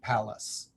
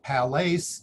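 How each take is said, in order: First: The last vowel is a reduced schwa sound. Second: The last vowel is a long a sound. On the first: The speaker calls it right. "spelling to a schwa, and read palace" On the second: The speaker calls it wrong. "instead of palace"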